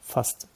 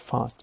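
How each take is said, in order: First: The A vowel is clipped short. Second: The A vowel is drawn out long. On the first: The speaker calls it right. "It's a f short A" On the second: The speaker calls it wrong. "Not fast"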